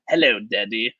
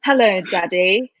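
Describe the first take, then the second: First: Light mock of a dubbed British voice; imitating the dubbed voice. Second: Slow, lightly British "Hello, Daddy"; British accent. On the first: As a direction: quote the line as the dub did it. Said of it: "the voice that comes out". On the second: Shown as a demonstration. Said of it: "a totally British accent".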